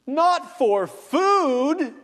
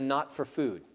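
First: Not blasted high, loud and very slow; emphatic not for food. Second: Said in the usual way. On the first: Shown as a demonstration. Pastor showing the Greek emphasis, loud emphatic cry. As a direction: hurl the word Not out. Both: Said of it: "what is emphatic".

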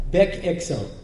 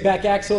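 First: "back axle" in an Israeli accent, like "bek eksel"; mock Israeli accent on "back axle", both words starting with "eh" sounds; Hebrew accent. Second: Said in the usual way. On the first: Shown as a demonstration. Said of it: "English with a bad accent".

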